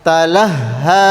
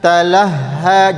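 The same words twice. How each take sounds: No difference in how they are said.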